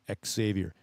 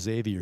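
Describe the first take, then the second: First: The name begins with a KS sound. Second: The name begins with a Z sound. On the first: The speaker calls it right. "He hits that X" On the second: The speaker calls it wrong. "He doesn't make the Z sound on that X. He's not a Xavier"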